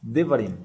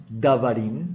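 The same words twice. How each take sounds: First: Devarim with a short E in the first syllable; correct pronunciation. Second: Davarim with a full open A in the first syllable; wrong pronunciation. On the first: Teacher gives the right Hebrew plural, devarim said with short E. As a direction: say devarim as de-va-rim, first vowel a quick short E. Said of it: "sino que decimos". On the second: Teacher shows the form students must not use, davarim said with open A. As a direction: say davarim as da-va-rim, first vowel a clear A. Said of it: "No decimos davarim". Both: Shown as a demonstration.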